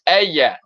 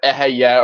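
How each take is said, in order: First: The middle h sound is left silent. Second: The middle h sound is pronounced.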